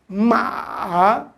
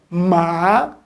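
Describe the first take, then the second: First: The pitch dips slightly, then rises again. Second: The pitch rises steadily from start to end. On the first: "ele dá uma leve queda e depois ele sobe" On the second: "ele é crescente, ó. Ma, ele está subindo"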